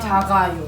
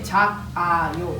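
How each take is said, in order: First: The final consonant carries over into the next syllable. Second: The first syllable's final consonant is kept separate. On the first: The speaker calls it right. "You say ... This one goes here" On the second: The speaker calls it wrong. "you don't say"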